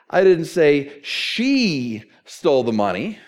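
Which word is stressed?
she. The stress falls on the word she. A different person took the money. "We all know it was Dade"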